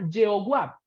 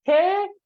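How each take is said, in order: First: "Yehová" said with a Y and a W, ye-o-wap; letter-by-letter reading. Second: "Jehová" broken into separate syllables, he... o... va; "Jehová" with an h-like J and long pauses between syllables; phonetic reading. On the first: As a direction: read "Yehová" as written, ye-o-wap. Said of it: "Lingüística sería Yehová". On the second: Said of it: "pero fonética sería Jehová". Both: Shown as a demonstration.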